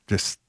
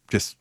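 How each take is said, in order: Both takes have the same delivery.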